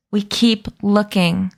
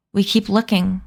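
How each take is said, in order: First: Slow, deliberate words through clenched teeth; through her teeth. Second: Said in the usual way. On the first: A narrator's reading. Emma repeating her order to the group, slowly through her teeth. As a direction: space out each word with restrained impatience. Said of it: "Emma said through her teeth".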